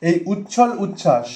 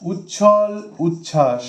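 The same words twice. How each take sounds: First: Said in the usual way. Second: উচ্ছল উচ্ছ্বাস drawn out syllable by syllable; slow and careful. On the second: Shown as a demonstration. Teacher repeating the exam word slowly for students. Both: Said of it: "এই শব্দটা কিন্তু টেটে".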